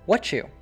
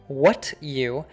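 First: The T and Y merge into a 'ch' sound. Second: The T and Y are kept separate with no 'ch' sound. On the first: The speaker calls it right. "he says" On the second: The speaker calls it wrong. "he doesn't say"

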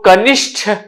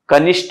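First: The final consonant is an aspirated retroflex th. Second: The final consonant is an unaspirated retroflex t. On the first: The speaker calls it right. "सही है" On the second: The speaker calls it wrong. "नहीं होता है"

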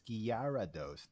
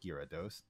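First: The name starts with a spoken 'gyara' sequence. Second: The name starts like the word 'gyros'. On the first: The speaker calls it right. "G-Y... A-R-A, so it's Gyarados" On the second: The speaker calls it wrong. "not Gyarados. ... not like the Greek food, not like Euros"

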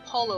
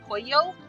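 First: The double L is said as an L sound. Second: The double L is said as a Y sound. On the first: The speaker calls it wrong. "it's not polo" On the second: The speaker calls it right. "it's pronounced with a y sound"

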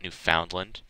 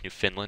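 First: The name is said literally as separate words. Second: The name is blended, not said word by word. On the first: The speaker calls it wrong. "Me pronouncing it literally there" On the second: The speaker calls it right. "It's Newfoundland"

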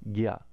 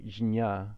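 First: It begins with a g sound followed by y. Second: It begins with a j sound before the nasal. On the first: The speaker calls it right. "Like a G and a Y sound" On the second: The speaker calls it wrong. "we would try to say jnya, but it ends up wasting a lot of prana"

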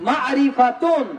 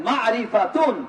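Both takes have the same delivery.

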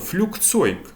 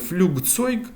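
First: The consonant before 'zeug' sounds like K. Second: The consonant before 'zeug' sounds like G. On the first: The speaker calls it right. "вимову більш схожу не на Г, а на К" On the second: The speaker calls it wrong. "таку неточність на початковому етапі, я думаю, можна пробачити"

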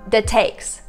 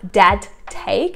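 First: The sounds are blended together without separate emphasis. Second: Each sound is said clearly and separately. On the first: The speaker calls it right. "It's not very emphasizing on each specific letter" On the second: The speaker calls it wrong. "It's not"

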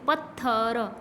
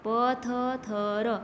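First: The doubled consonant is joined into one cluster. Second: Each letter is sounded as its own syllable.

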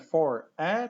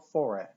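First: The two words are said separately. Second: The two words are linked together. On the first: The speaker calls it wrong. "Nie mówimy for a" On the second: The speaker calls it right. "tylko for a. ... Zlewa się"

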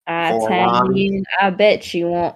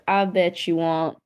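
First: It is said in an Italian accent. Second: It is said in a British-sounding accent. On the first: The speaker calls it right. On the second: The speaker calls it wrong.

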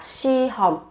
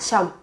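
First: It is said slowly with two clear syllables. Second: It is said fast, squeezed into one syllable. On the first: "đọc chậm sẽ là si hòm" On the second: "đọc nhanh sẽ là xăm"

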